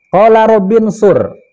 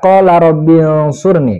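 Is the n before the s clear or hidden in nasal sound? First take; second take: clear; hidden. First: The n is pronounced as a clear n. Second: The n is hidden in a nasal hum. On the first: The speaker calls it wrong. "lucunya yang pertama dia baca di sini" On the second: The speaker calls it right. "harusnya di sini dibaca qala Robin Surni karena hukumnya ikhfa"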